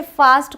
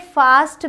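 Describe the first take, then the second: First: फास्ट with the open "ae" of cat, "faest"; American vowel. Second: फास्ट with a long back "aa", "faast"; British vowel. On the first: Teacher recalls the reading taught earlier, फास्ट with American "ae". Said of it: "फास्ट को मैंने बताया फास्ट पढ़ेंगे". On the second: Teacher shows the alternative reading, फास्ट with British long "aa". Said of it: "इसे फास्ट भी पढ़ा जाता है". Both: Shown as a demonstration.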